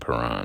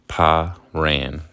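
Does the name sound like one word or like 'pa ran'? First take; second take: one word; pa ran. First: It sounds like one ordinary two-syllable name. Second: It sounds like the two words 'pa ran'. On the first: The speaker calls it wrong. "I like that pronunciation better than Paran" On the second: The speaker calls it right. "I like that pronunciation better than Paran, actually. Pa-ran. Like your pa, your pops, your pa, he ran"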